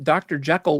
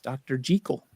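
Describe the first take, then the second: First: The name is said the common, non-Scottish way. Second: The name is said the Scottish way. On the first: The speaker calls it wrong. "is not the right pronunciation" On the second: The speaker calls it right. "It's Doctor Jekyll. ... it's Scottish"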